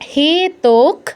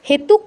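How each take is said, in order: First: The second syllable has an 'o' vowel. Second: The second syllable has a 'u' vowel. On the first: The speaker calls it right. "ওকার উকার নয়" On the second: The speaker calls it wrong. "হেতুক নয়"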